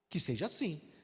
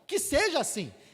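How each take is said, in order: First: It sounds ironic and doubtful. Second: It sounds sincerely hopeful.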